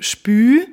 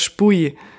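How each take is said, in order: First: The word ends in a rounded ü vowel. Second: The word ends in a ui vowel glide. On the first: The speaker comes from further east. "je weiter du Richtung Osten gehst, desto eher wird es zu einem Ü" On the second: The speaker comes from further west. "je weiter du Richtung Westen gehst ... dann ist es schon eher das Spui"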